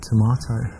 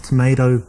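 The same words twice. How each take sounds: First: English "tomato", to-MAH-toh; English accent. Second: "tomato" with an AY in the middle; American-style pronunciation. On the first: Man showing off his accent to a date, English to-MAH-toh. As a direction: say "tomato" the British way, with an AH. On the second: Man showing off for a date, "tomato" as to-MAY-doh. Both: Shown as a demonstration. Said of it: "with my English accent".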